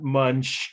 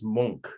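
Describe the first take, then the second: First: It is said like the English word for chewing. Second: It is said unlike the English word for chewing. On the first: The speaker calls it wrong. "not Munch. It's not the thing you do when you're hungry" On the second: The speaker calls it right. "The artist name is Munch"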